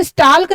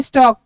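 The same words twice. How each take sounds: First: स्टाल्क with the L wrongly pronounced before K; स्टाल्क said as "stalk" with an audible L; sounded silent L. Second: स्टॉक with no L sound before the K; स्टॉक said as "stawk", L dropped; silent L. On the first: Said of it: "इसको स्टाल्क नहीं पढ़ते". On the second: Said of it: "यहाँ पे एल silent रहता है". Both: Shown as a demonstration.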